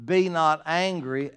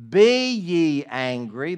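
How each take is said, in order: First: "Be not angry" loud and slow, each word weighted; emphatic prohibition. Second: "Be ye angry" very loud, drawn out word by word; emphatic command. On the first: Preacher gives the wording Scripture didn't use, "Be not angry", emphatically. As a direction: declare "Be not angry" as if exclaimed. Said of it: "emphatically say with an exclamation point". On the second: Preacher quotes the verse "Be ye angry" as an emphatic command. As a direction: order it forcefully: "Be ye angry", slow and booming. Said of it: "that's a command". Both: Shown as a demonstration.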